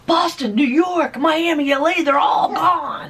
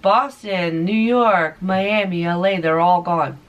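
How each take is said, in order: First: It is said with lively, excited enthusiasm. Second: It is said flat and deadpan, without energy. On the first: This is how the line was supposed to go. The speaker calls it right. "with enthusiasm, like he's talking to, uh, like he's talking to um, a news crew" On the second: This was a nervous first take in front of the camera. The speaker calls it wrong. "So deadpan, it was so bad"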